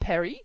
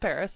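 First: It is said the French way, without final s. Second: It is said the American way, with final s. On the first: "do you at least pronounce it with the way we pronounce it?" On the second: "pronounce it with the American pronunciation"

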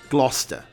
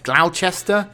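First: The middle letters are dropped, making it short. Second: Every letter is sounded, making it longer. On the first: "cut out one or two letters from the middle of the word" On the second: "how are you going to pronounce it?"

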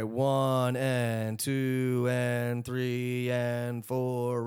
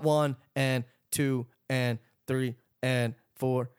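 First: Each count is drawn out and connected. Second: Each count is cut short and separated. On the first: The notes are given their full length so they ring and breathe. The speaker calls it right. "elongate all of the stuff that you're playing" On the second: The notes are cut off so they sound choked and squared off. The speaker calls it wrong.

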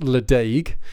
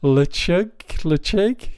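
First: The name is said as it is spelled. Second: The name is said with a throaty middle sound. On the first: The speaker calls it wrong. "it's spelt like it looks like it should be pronounced Ledaig" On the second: The speaker calls it right. "but I believe it's pronounced Lechug"

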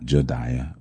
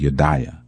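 First: The name begins with a J sound. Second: The name begins with a Y sound. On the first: The speaker calls it wrong. "not Jediah" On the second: The speaker calls it right. "the J is a Y, so it's actually Jediah"

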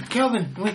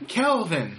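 First: The name is said without an H sound. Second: The name is said with an H sound. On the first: The speaker calls it wrong. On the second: The speaker calls it right.

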